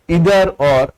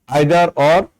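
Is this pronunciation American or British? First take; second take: American; British. First: It is said with an American pronunciation. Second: It is said with a British pronunciation. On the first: "American pronunciation" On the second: "In British"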